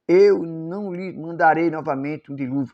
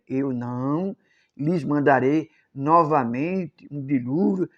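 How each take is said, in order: First: It is read at a normal reading pace. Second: It is read slowly and calmly.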